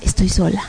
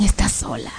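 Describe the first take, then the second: First: Resigned echo. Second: Low, hushed demonic whisper; horrible demon voice. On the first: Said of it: "empiezo a escuchar mi voz". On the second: Demons tormenting her as she flies, horrible whisper. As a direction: hiss it low and soft like a demon. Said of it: "unas voces horribles que decían". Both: Retold or imitated.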